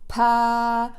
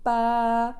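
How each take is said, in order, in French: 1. Le p est long avec un souffle d'air fort. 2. Le p est court avec presque pas d'air. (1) "au lieu d'avoir" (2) "Je ne sens aucun jet d'air dans ma main"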